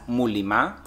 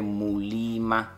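First: The vowel after the L is short. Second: The vowel after the L is drawn out. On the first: The speaker calls it wrong. "people don't misinterpret it as Muliima, based on the fact that it's one I" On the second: The speaker calls it right. "based on the pronunciation from my tribe, it's actually Muliima"

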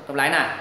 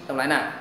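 Both takes have the same delivery.

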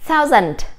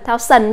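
First: The second syllable sounds like 'dent'. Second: The second syllable sounds like 'sun'. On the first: The speaker calls it right. "chữ này chúng ta sẽ đọc là thousand" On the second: The speaker calls it wrong. "Chứ chúng ta đừng đọc là thao sần nhé"

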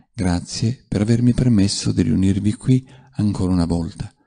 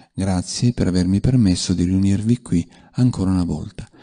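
Both takes have the same delivery.

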